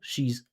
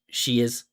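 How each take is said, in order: First: It is spoken as one single syllable. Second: It is spoken as two separate syllables. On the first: "The contraction is one syllable" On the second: "That's two syllables"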